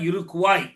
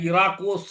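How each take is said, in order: First: The word ends with a 'kwai' sound. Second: The word ends with a 'kos' sound. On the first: The speaker calls it right. "இறுகுவாய் என்பதுதான் இருக்குவாய்" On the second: The speaker calls it wrong. "இராக்கோஸ்லாம் இல்லை"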